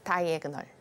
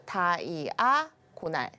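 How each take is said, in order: First: It is said with the English vowel sounds. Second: It is read letter by letter, Korean-style. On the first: It is how it is said in English. "영어로는 다이애그널 이렇게 읽기도 합니다" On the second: It is a Konglish reading of the spelling. "다이아고날 이렇게 그냥 읽은 건데"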